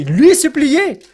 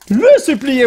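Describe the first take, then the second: First: "lui supplier" slowly, as an incredulous question; mistaken wording queried. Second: "Le supplier" with LE punched high; emphatic correction. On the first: Speaker catching his own grammar slip, querying "lui supplier". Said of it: "Le supplier, voyons donc". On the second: Speaker fixing his own slip, emphatic "Le supplier". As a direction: correct it firmly, hitting "Le" hard and high. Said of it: "Est-ce que j'ai dit lui supplier?". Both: Shown as a demonstration.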